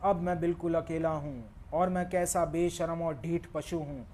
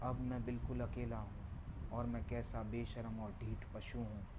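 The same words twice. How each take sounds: First: The line is spoken at a loud volume. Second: The line is spoken at a fairly soft volume. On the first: "अब थोड़ा और volume बढ़ाता हूँ। मेरा pitch और speed वही है।" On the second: "अब मैं थोड़ा वॉल्यूम बढ़ाता हूँ।"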